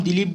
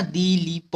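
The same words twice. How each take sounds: First: Said in the usual way. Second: दिलीप in slow pieces, दी-ली-प; each syllable of दिलीप held long. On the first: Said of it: "lipid को हम दिलीप बोल सकते हैं". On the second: Shown as a demonstration. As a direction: spell दिलीप out by sound, "dee-lee-p". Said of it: "इसको दिलीप बोल दिया है ना".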